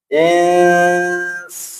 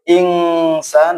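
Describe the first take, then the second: First: The n is hidden into the s, nasalized. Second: The n before s sounds like 'ng'. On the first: The speaker calls it right. "ikhfa ... menyamarkan nun ... dengan dengung" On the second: The speaker calls it wrong. "tidak boleh ingsan"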